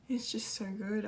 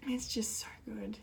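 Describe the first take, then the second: First: Said in the usual way. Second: Plain. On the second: Real, not acted. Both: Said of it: "I am emotional".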